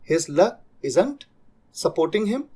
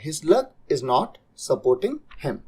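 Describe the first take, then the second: First: 'Is not' is contracted into one syllable pair. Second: 'Is not' is said as two full words.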